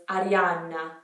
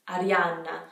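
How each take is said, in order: The two takes are said the same way.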